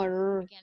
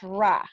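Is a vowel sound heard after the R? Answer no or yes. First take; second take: no; yes. First: The R sound is held alone without a vowel. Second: The R sound is followed by a vowel. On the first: The speaker calls it right. "es como r, con la boca cerrada" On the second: The speaker calls it wrong. "no es ra"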